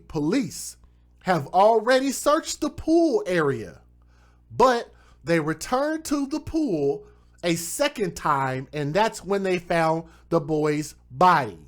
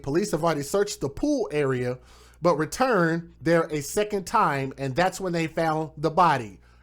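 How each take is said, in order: First: It is read slowly and deliberately. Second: It is read at a normal pace.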